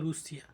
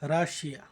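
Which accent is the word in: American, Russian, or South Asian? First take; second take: Russian; South Asian. First: It is said in a Russian way, as 'Rushia'. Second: It is said in a South Asian way, as 'Rashia'. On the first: This is how Russians say their country's name. "রাশিয়ানরা বলে নিজেদেরকে রুশিয়া" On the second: This is how South Asians say the name. "আমাদের Asian এই দিকের মানুষরা আমরা বলি রাশিয়া"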